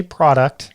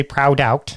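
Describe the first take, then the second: First: Product with a short open first vowel, PRAH-duct; usual pronunciation. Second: Proud out as two full words, both with an OW sound; wrong pronunciation. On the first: Host rejecting a pronunciation of guest's brand, product as PRAH-duct. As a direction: say product as the everyday word, "PRAH-dukt". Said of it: "I can't say product". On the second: Host trying out guest's brand name, overdone as proud out. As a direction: overdo it as "proud out", PROW-DOWT. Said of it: "I can't say proud out". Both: Shown as a demonstration.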